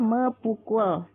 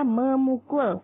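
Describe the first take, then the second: First: The root's p sound is kept after me. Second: The root's p merges into an m sound. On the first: The speaker calls it wrong. "bukannya mepukul" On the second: The speaker calls it right. "dibacanya memukul"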